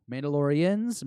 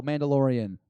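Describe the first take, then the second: First: "Mandalorians" with the final s, asked with a rising tune; plural form. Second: "Mandalorian" said as the singular, no final s; "Mandalorian" tried out as the plural, without the s; singular form. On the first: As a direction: try "Mandalorians" as the plural, ending in a question. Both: Shown as a demonstration. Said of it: "Is it plural Mandalorian?".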